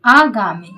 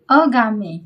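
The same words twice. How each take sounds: First: आगामी opened on a loud, long "aa"; correct long AA. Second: अगामी begun with short "a"; wrong short A. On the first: Teacher giving the correct word, आगामी with strong long "aa". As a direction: hit the long first vowel of आगामी hard. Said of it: "ये शुद्ध है". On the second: Teacher reading out the faulty word, अगामी with short first vowel. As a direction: say "uh-gaa-mee" for अगामी. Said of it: "ये अशुद्ध शब्द है". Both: Shown as a demonstration.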